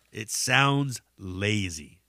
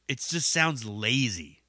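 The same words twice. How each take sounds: First: Sounds lazy dragged out slowly; slow it down to drive it home; slow emphasis. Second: Said in the usual way. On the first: Real, not acted. Judging mumble rap, slow emphatic put-down.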